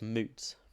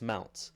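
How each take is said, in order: First: The vowel sounds like the one in boot. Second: The vowel sounds like the one in out. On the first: "you're pretty sure it's moot" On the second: "So I think it's mout"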